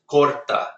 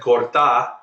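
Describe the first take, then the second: First: The stress is on the first syllable. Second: The stress is on the last syllable. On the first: It means he cuts. The speaker calls it right. "This word is just corta" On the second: It becomes a different word. The speaker calls it wrong. "he put the stress at the end"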